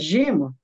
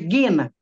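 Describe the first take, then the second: First: The word begins with a soft J sound. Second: The word begins with a hard G sound. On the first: This is how it is called in Portuguese. "a gente chama gema" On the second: This is how it is said in Greek. "mas é gena em grego, né? Porque o G em grego se pronuncia como G"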